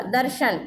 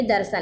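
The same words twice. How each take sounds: First: दर्शन said with a clear sh sound, "darshan"; tatsam form. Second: दर्शन said with s in place of sh, "darsan"; tadbhav form. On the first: Teacher reads the Sanskrit form to students, दर्शन with sh. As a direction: say दर्शन carefully as "dar-shan". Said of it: "इसको कहते हैं". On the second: Teacher gives students the everyday form, दर्शन as "darsan". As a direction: soften दर्शन to "dar-san", dropping the sh. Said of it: "यानी दर्शन". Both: Shown as a demonstration.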